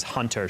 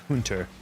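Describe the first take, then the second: First: Said in the usual way. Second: "hunter" lightly imitated in old Cockney; thick Cockney accent. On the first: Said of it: "when she says hunter". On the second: Showing chat how Elaine says hunter, imitated Cockney. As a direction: say "hunter" as a Cockney Englishwoman would. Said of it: "old British accent".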